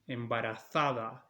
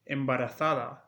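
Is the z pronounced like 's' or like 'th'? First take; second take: th; th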